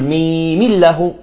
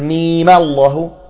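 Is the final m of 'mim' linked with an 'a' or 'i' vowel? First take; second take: i; a. First: The final m is linked with an i vowel. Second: The final m is linked with an a vowel. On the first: The speaker calls it wrong. "تكون ثقيلة في النطق" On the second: The speaker calls it right. "أسهل بالنطق"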